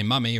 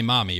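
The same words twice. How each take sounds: First: "mummy" with an uh vowel; British "mummy". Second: Said in the usual way. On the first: Shown as a demonstration. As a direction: make the first vowel of "mummy" uh. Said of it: "You say "mummy". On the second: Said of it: "You don't say "mommy".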